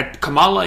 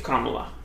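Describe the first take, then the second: First: Kamala as kuh-MAH-luh; wrong pronunciation. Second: Kamala as KAH-muh-luh; first syllable stressed in Kamala; Kamala said like "comma-la"; right pronunciation. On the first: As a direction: middle syllable stressed in Kamala. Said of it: "you don't say it like that". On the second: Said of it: "I think it's Kamala". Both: Shown as a demonstration.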